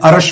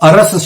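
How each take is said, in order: First: The word ends with an sh sound. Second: The word ends with an s sound. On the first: The speaker calls it wrong. "सब गलती करते हैं, अरश बोलते हैं।" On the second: The speaker calls it right. "पर वाणी में अरश शब्द कहीं नहीं है, अरस शब्द है।"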